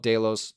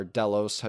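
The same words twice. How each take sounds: First: "Delos" with its first syllable rhyming with day; Delos as DAY-los. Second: "Delos" with its first syllable rhyming with bell; Delos as DELL-os. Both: Shown as a demonstration. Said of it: "depending on which character says it".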